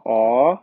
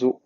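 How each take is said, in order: First: O as open "aw", held low. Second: O as a long rounded "oh", rising; closed O. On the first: Teacher clarifying the vowel, open O held long. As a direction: open the O wide and hold it. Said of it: "o O aqui é aberto". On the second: Teacher listing the next vowel, closed O held long. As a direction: round the O tight and hold it. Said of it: "o O fechado". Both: Shown as a demonstration.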